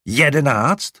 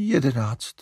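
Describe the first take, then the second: First: Louder, higher disbelieving Jedenáct?; aghast. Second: A reluctant admission; hesitant. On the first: Larry repeating the number to mother, aghast. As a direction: repeat Jedenáct? in horror, rising. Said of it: "opakoval zděšeně". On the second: Mother admitting the number of puppies, hesitant. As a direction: own up to it, unsure. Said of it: "připustila trochu váhavě maminka". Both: A narrator's reading.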